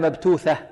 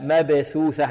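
First: The first is t, the second th. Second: Both consonants are th sounds. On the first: The speaker calls it wrong. "ولا مبتوثة" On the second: The speaker calls it right. "عندنا هنا ثاءان"

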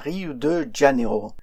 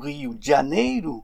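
First: The name is said with French sounds and stress. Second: The name is said with Portuguese sounds and stress. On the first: The speaker calls it wrong. "mais non pas Rio de Janeiro" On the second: The speaker calls it right. "Pour le prononcer correctement, il faudrait dire Rio de Janeiro"

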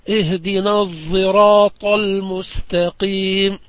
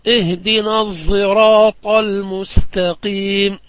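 No difference in how they are said.

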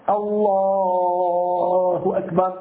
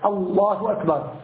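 First: The vowel in Allah is drawn out long. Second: The vowel in Allah is cut short. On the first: The start of the prayer is valid. The speaker calls it right. "لابد أن يمده أقل شيء حركتين وأكثر شيء ست حركات" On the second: The start of the prayer is not valid. The speaker calls it wrong. "هكذا فقط الله أكبر، ما الحكم؟ لم يصح"

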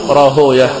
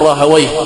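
First: The name does not end in '-wayh'. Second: The name ends in a '-wayh' sound. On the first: This is the form used by hadith scholars. "وأهل الحديث يقولون راهوية" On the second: This is the form used by language scholars. "فأهل اللغة يقول راهوي مثل سيبوي ونفطوي وخالوي"

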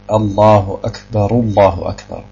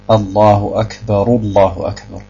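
No difference in how they are said.

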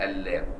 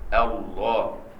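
First: The L sound is thin and light. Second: The L sound is thick and heavy. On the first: The speaker calls it wrong. "السودانيين الله" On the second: The speaker calls it right. "فخم لفظ إله لفظ الجلال"

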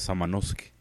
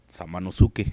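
First: The name is said with Japanese pronunciation. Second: The name is read out with Spanish pronunciation.

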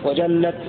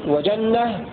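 First: The word ends with a t sound. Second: The word ends with an h sound. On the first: "بالتاء" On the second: "بالهاء"

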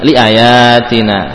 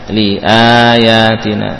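First: The vowel after the hamzah is short. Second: The vowel after the hamzah is long. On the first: The speaker calls it wrong. "bukan liayatina ya" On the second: The speaker calls it right. "alifnya berfungsi menjadi huruf mad"

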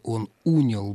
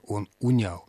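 First: The stress falls on the prefix. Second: The stress falls after the prefix. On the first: The speaker calls it wrong. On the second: The speaker calls it right.

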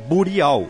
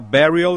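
First: The name is said with Portuguese sounds. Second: The name is said with English sounds. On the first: The name is adapted to local speech. "A portuguesando o nome do coletivo é Burial" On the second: The name keeps its original form. "falar Burial é meio cascudinho demais"

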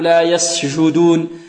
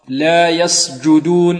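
First: The j sound lets the voice flow on softly. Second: The j sound is fully stopped and abrupt. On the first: The speaker calls it wrong. "لا نقول" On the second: The speaker calls it right. "تلاحظ أن الصوت انحبس هنا"

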